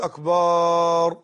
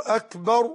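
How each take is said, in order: First: «أكبر» with the last vowel held long: «أكبار»; wrong long vowel. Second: «أكبر» said short, last vowel not stretched; correct short vowel. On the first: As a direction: drag out the end of «أكبر» on a level note. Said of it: "وهذا أكبر هو الطبل". («أكبر» بمدّ الباء: «أكبار») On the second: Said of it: "بدل يقول". («أكبر» قصيرة بلا مدّ) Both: Shown as a demonstration.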